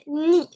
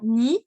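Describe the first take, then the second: First: The syllable is said on a high pitch. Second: The syllable is said on a plain, ordinary pitch. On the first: The speaker calls it right. "c'est un ton haut" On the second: The speaker calls it wrong. "ça doit pas être prononcé simplement ni"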